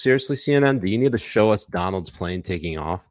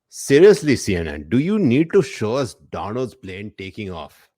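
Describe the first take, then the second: First: It is read in his normal accent. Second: It is read in a Pakistani accent.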